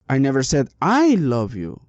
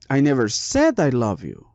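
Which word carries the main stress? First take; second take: I (second); said. First: The stress falls on the second I. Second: The stress falls on the word said. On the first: Someone else loves you, not the speaker. "maybe I said someone else loved you, but not me" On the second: It was written, not said aloud. "maybe I wrote it, but I never said it"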